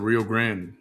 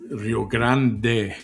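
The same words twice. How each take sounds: First: The final E of Grande is silent. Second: The final E of Grande is pronounced. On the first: "But in English, it's the Rio Grande" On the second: "If you say it in Spanish, then it's Rio Grande. You say the E"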